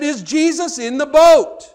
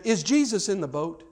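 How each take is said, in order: First: Loud, high, drawn-out question; emphatic repeat. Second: Said in the usual way. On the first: Retold or imitated. Old missionary repeating his question to the exasperated preacher, emphatic. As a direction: hammer each word slowly and loudly.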